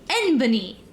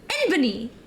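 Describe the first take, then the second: First: It is said as one three-syllable word. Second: It is said as one three-syllable word.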